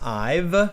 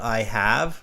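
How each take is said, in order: First: The word have is contracted to ve. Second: The word have is said in full. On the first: The speech sounds natural. "And then saying I've" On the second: The examiner can hear the correct auxiliary verb. "like in present perfect, I have"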